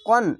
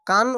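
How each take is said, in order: First: The vowel is a dark, rounded 'o'-like sound. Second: The vowel is a light, open 'a' sound. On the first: The speaker calls it right. "এটি হবে কন" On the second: The speaker calls it wrong. "অনেক সবাই বলে এটি মোটা অক্ষর তার জন্য কফ আকার উচ্চারণ হবে না"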